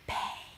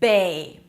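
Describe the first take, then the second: First: The word is whispered without voice. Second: The word is said in a normal voice.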